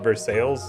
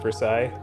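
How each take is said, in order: First: The name is said with English sounds. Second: The name is said with French sounds. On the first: This is how the locals say it. "They call it Versailles" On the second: This is how the locals do not say it. "not Versailles"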